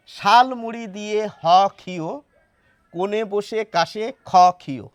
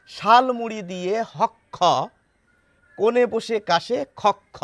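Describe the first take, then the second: First: ক্ষ read as "ক্ষীয়" (khiyo), each line ending on ক্ষীয়; rhyme with ক্ষীয়. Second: ক্ষ read as "হক খ", a doubled k-kh rhyming with খক খ; rhyme with হক খ. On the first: Teacher tries the name ক্ষীয় in the rhyme. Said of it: "এই নামটি দিয়ে পড়ব". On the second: Teacher reads the rhyme the right way for viewers, saying হক খ. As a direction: end the lines hok-kho and khok-kho so they rhyme. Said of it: "তাহলে আমরা কিভাবে পড়ব". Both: Shown as a demonstration.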